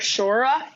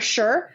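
First: The word is stretched into two syllables. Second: The word is said as one syllable. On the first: It imitates an actress's bad accent. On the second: It is the ordinary way to say it.

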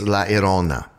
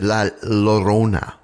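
First: The double L is not said as an L. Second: The double L is said as an English L. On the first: The speaker calls it right. "It's La Llorona" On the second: The speaker calls it wrong. "I had pronounced the L's, but apparently I was being very sort of Anglo-Saxon about that"

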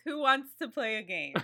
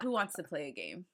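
First: It is said slowly and drawn out. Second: It is said at normal speed.

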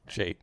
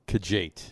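First: The name begins without a K sound. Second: The name begins with a K sound.

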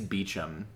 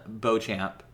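First: The name is pronounced like 'Beecham'. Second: The name is not pronounced like 'Beecham'. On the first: The speaker calls it right. "I think it's Beecham" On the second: The speaker calls it wrong. "I think I mispronounced that"

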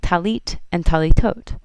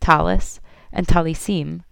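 First: The words end with a t sound. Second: The words end with an s sound.

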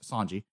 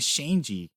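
First: The name begins with an 's' sound. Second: The name begins with a 'sh' sound. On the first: The speaker calls it right. "No H, just Sanji" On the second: The speaker calls it wrong. "I think I was saying Shanji"

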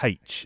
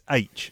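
First: The letter name starts with an h sound. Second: The letter name starts with a vowel sound. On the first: The speaker calls it wrong. "not H" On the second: The speaker calls it right. "It's H"

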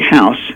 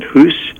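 First: The vowel is the modern English 'ow' sound. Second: The vowel is a long 'oo' sound.

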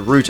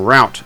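First: It is said with a non-American pronunciation. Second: It is said with an American pronunciation.

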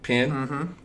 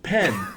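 First: The vowel sounds like the vowel in pin. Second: The vowel sounds like the vowel in pet. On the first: "I'd say pen, P-I-N, pen" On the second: "oh, you mean pen, pen"

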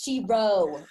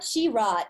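First: The word ends without any T sound. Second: The word ends with an audible T sound. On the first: The speaker calls it right. "The T is silent" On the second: The speaker calls it wrong. "It's not She-Rot"

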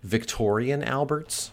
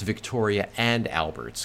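First: The 'and' merges into one word, 'Victorian'. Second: The 'and' is said as its own word. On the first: The speaker calls it wrong. "I always said like Victorian Alberts" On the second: The speaker calls it right. "oh, it's Victoria and Alberts"

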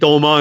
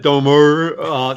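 First: The name ends without an r sound. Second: The name ends with a clear r sound. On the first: "I guess that's my Brooklyn Statenese" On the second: "instead of Domer"

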